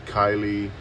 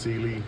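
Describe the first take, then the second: First: The first syllable sounds like kai. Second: The first syllable sounds like see. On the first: The speaker calls it wrong. "some people pronounce it Kylie" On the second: The speaker calls it right. "but it is pronounced Sealy"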